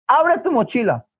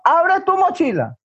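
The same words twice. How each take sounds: First: Acted motherly command, raised pitch; stern order. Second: Much higher, escalated motherly command; insistent order. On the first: Mother orders son to show his bag, acted stern order. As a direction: give a firm, controlled order. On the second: Acted. Mother overrules her son's refusal, acted insistent command. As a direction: insist sharply over the child's protest.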